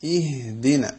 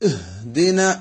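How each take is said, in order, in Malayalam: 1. "h" മൃദുവായ, ലളിതമായ ഒരു ശ്വാസമാണ്. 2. "h" ഉച്ചത്തിലുള്ളതും മുഴങ്ങുന്നതുമാണ്. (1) "സിമ്പിളായ ഒരു ഹ ആണ്" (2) "വലിയൊരു സ്വരത്തോടുകൂടി വലിയ മുഴക്കത്തോടുകൂടി"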